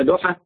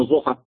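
First: "ضحى" with a heavy d, tongue not out; emphatic dad name. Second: "ضحى" begun with a z-like emphatic sound; dad said as za. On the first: Teacher offers students a choice of name, dad version. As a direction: say "ضحى" as a rising question with d. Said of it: "بتقول لها". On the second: Teacher offers students the mistaken name, za version. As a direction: say "ضحى" as if it were "zuha". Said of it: "ولا بتقول لها". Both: Shown as a demonstration.

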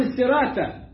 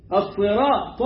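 First: السراتة with thin "s" and "t"; wrongly light letters. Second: الصراط with dark, full emphatic "S" and "T"; heavy sad and taa. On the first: Teacher shows what is not allowed, thin consonants. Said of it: "ما ينفعش أقول السراتة". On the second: Teacher models the right word, emphatic consonants. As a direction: thicken both ص and ط in الصراط. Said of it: "حرفين مفخمين". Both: Shown as a demonstration.

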